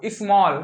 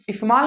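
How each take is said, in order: First: स्मॉल as "ismawl", rounded vowel; correct vowel demo. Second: स्मॉल as "ismaal", open "aa"; wrong vowel demo. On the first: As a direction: say स्मॉल with an "aw" as in "law". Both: Shown as a demonstration. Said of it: "स्मॉल नहीं पढ़ना आपको".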